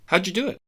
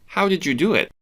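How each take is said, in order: First: The words run together, said very fast. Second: The words flow together a little, medium pace.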